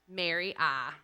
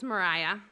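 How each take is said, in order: First: The name is split into 'Mary' plus 'ah'. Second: The name is said in its usual form. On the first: This is a teasing reading that follows the spelling. "I would often tease her during class about her name being pronounced Mary Ah" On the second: This is the proper form of the name. "pronounced Mary Ah instead of Mariah"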